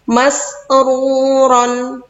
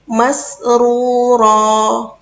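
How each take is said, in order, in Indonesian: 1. Kata itu berakhir dengan vokal pendek ditambah n. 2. Kata itu berakhir dengan vokal yang dipanjangkan dua ketukan.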